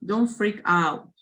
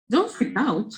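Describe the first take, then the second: First: DON'T FREAK OUT read slowly, with little intonation; slow, unexpressive reading of "Don't freak out"; read-out without feeling. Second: "Don't freak out" high, with big pitch swings; lively, swooping "Don't freak out"; expressive intonation. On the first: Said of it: "If you read in this way". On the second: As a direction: say DON'T FREAK OUT with real attitude. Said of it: "please use a good intonation". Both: Shown as a demonstration.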